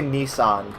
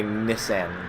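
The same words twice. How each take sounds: First: "Nissan" said as NEE-sahn; long ee, open ah in "Nissan"; American pronunciation. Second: "Nissan" said as NISS-an; short i, flat a as in "cat" in "Nissan"; British pronunciation. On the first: Streamer showing viewers how we say it, "Nissan" as NEE-sahn. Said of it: "We say Nissan". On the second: Streamer showing viewers how the British say it, "Nissan" as NISS-an. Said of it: "the British say Nissan". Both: Shown as a demonstration.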